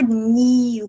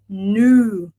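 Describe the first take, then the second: First: The vowel starts with an 'ee' glide. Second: The vowel is a long 'oo' sound. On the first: The speaker calls it wrong. "a gente não fala new com I, igual a gente fala do português" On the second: The speaker calls it right. "Um pouco mais com o longo"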